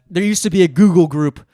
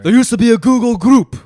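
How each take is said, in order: First: It is said in the speaker's own accent. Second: It is said imitating the man's foreign accent.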